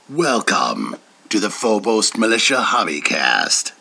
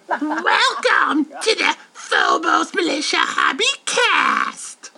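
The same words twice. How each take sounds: First: It is said in his natural voice. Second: It is said in a little doll's voice.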